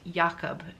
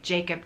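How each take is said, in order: First: The name begins with a Y sound. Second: The name begins with an English J sound. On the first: The speaker calls it right. "I believe it's pronounced Jakob" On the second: The speaker calls it wrong. "a lot of people say Jacob"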